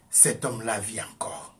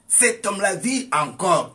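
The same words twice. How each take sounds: First: Said in the usual way. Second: Much higher and louder, punching vit; loud proclamation. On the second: Shown as a demonstration. Preacher to congregation, loud triumphant repeat. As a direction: declare it like a victory cry.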